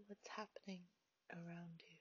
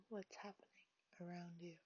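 The two takes are said the same way.

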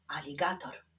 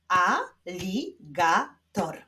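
First: Said in the usual way. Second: "Aligator" slowly, in four separate syllables; slow clapping-out beat on "Aligator"; split into syllables. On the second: Shown as a demonstration. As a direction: pause after each syllable of "Aligator". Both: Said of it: "Wyklaszczmy sylaby w tych wyrazach".

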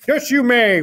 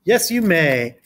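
First: High, loud put-on farmer voice; reply heartily as a storybook farmer; Farmer Brown. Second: Said in the usual way. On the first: A narrator's reading. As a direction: farmer character, pitched up and louder. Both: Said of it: "replied Farmer".

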